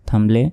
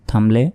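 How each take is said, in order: The two takes are said the same way.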